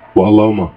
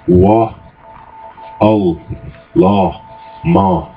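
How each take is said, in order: First: It is said fast, syllables run together. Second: It is said slowly, syllable by syllable.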